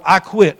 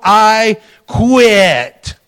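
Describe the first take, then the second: First: Said in the usual way. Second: "I quit" drawn out loud and high; exclamation mark. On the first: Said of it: "And I wrote". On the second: Retold or imitated. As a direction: hit "I quit" as a big written exclamation. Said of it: "with an exclamation mark".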